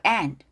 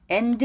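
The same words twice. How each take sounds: First: "and" with the last d barely sounded; weak final d. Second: "and" as two syllables, en-deu; "and" Korean-style, ending in a sounded deu; and with an added vowel. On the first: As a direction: let the end of "and" fade, no added vowel. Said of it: "뒤로 끝난 단어 약하게". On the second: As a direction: say "and" with a full vowel after the d. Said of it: "and 하지 말고". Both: Shown as a demonstration.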